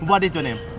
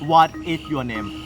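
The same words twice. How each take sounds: First: The t of what links into is. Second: Each word is said separately, without linking. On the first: The speaker calls it right. "เขาจะพูดว่า" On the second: The speaker calls it wrong. "ไม่มีใครพูดว่า"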